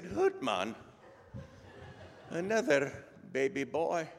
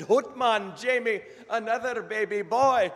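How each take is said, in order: First: Less thrilled Scottish father; mock-dismayed Scottish reply; Scottish brogue. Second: Excited Scottish doctor, very high and loud; Scottish brogue. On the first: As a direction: echo the news haltingly, with a pause, in Scottish brogue. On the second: Acted. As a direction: proclaim it in a hammed-up Scottish brogue. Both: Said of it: "best Scottish brogue I can come up with".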